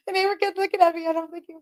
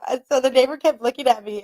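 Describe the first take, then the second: First: High, laughing through the words; real giggles breaking the line. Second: Said in the usual way. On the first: Real, not acted. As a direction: crack up while saying it. Retelling it while laughing.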